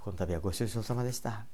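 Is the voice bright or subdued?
subdued. It is said in a normal, subdued voice.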